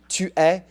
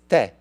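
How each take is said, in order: First: Both words are said fully, as two syllables. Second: The words merge into a single short syllable. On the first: This is the form used when reading. "don't expect anyone to ever say tu es" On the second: This is the form people use when speaking. "It's te"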